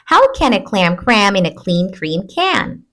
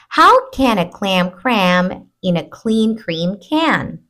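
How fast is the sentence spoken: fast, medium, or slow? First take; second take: fast; medium. First: The sentence is spoken quickly. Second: The sentence is spoken at moderate speed. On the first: "A little bit faster" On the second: "Let's do it a little faster"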